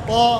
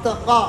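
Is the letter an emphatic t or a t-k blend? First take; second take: emphatic t; t-k blend. First: It is one heavy t with the tongue raised. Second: It sounds like a t followed by a k. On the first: The speaker calls it right. "पूरी ज़ुबान ऊपर की तरफ उठे" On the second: The speaker calls it wrong. "ये भी नहीं पढ़ने, ता और काफ भी नहीं पढ़ने"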